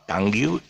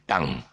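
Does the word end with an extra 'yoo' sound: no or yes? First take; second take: yes; no. First: The word ends with an extra 'yoo' sound. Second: The word ends plainly on the 'ng' sound. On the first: The speaker calls it wrong. "it is not tongue you" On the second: The speaker calls it right. "it's slip of the tongue"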